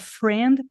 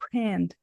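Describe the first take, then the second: First: The word begins with an F sound. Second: The word begins with a P sound. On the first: The speaker calls it right. "ela troca friend" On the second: The speaker calls it wrong. "por friend"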